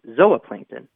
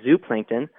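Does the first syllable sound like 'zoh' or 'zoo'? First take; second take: zoh; zoo. First: The first syllable has a long O sound. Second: The first syllable sounds like 'zoo'. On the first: This is the pronunciation the respelling indicates. "according to this spelling, it would be zooplankton" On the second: This is the common everyday pronunciation. "people would say zooplankton"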